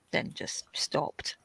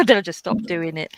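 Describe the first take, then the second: First: Softer whispered aside. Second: Said in the usual way. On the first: Real, not acted. Telling a viewer she quit the parties, in a whisper. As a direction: drop to a breathy secret whisper.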